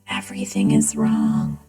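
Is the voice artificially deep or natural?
deep. The voice is artificially deepened by a changer. "with the deep voice"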